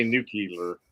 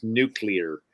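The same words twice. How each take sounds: First: "nuclear" said as NOO-kee-ler; folksy wrong "nuclear", three syllables, NOO-kee-ler; mispronounced "nuclear". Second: "nuclear" said as NOO-klee-er; careful "nuclear", NOO-klee-er; correct "nuclear". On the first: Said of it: "No, it's not nuclear". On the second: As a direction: keep the kl together in "nuclear". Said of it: "It's nuclear". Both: Shown as a demonstration.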